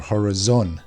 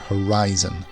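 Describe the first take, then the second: First: The stress is not on the second syllable. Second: The stress is on the second syllable. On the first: The speaker calls it wrong. "It's not horizon or horizon" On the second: The speaker calls it right. "The I is the strongest sound here"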